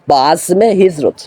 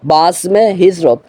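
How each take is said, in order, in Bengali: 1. একটি 'e' ধ্বনি azm-কে hijrat-এর সঙ্গে যুক্ত করে। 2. একটি 'e' ধ্বনি azm-কে hijrat-এর সঙ্গে যুক্ত করে।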